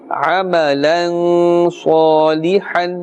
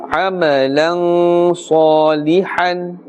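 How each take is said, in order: The two takes are said the same way.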